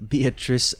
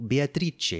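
First: Said in the usual way. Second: Beatrice said bee-ah-TREE-chee, higher; Italian pronunciation. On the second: Shown as a demonstration. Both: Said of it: "as you confirmed in the audiobook".

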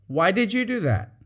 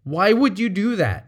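First: "did" stressed, curious; open, gentle why; sincere question. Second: "would" leaned on, louder; sharp accusing why; accusatory question. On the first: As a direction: ask sincerely. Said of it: "the other one might be". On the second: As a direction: blame them. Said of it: "One sounds like you're accusing". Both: Shown as a demonstration.

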